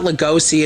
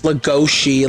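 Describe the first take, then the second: First: The name is said with a plain 's' sound. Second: The name is said with an 'sh' sound. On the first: The speaker calls it wrong. "it's not Lugosi" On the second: The speaker calls it right. "it's Lugosi, like Gauche"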